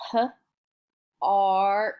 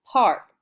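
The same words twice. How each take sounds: First: P-ark split into p and ark; sounded out. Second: Park said whole and louder; blended word. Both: Shown as a demonstration. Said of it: "remember the A R".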